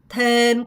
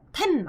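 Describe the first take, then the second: First: The word is held and drawn out. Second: The word is said short and clipped. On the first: The speaker calls it right. "템 끌어야 돼요" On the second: The speaker calls it wrong. "템 안 돼요"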